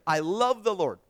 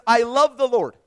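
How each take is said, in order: First: Said in the usual way. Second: "I love the Lord" said louder, stress on "love"; emphatic quote. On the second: Shown as a demonstration. Preacher reading the psalmist to congregation, emphatic. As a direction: proclaim "I love the Lord" boldly.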